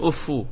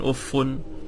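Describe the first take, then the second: First: The word ends with a doubled f and u. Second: The word ends with a doubled f and un. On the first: "tasydid al-fa bi rafa' min ghairi tanwin" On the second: "tasydid al-fa, marfu'a, munawwana"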